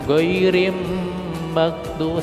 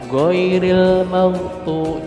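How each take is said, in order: First: The L merges into an M before maghdubi. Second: The L sound is clearly heard before maghdubi. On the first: The speaker calls it wrong. "jangan goirim maghtu, salah" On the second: The speaker calls it right. "Jadi L-nya diperdengarkan"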